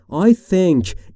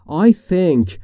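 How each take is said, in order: No difference in how they are said.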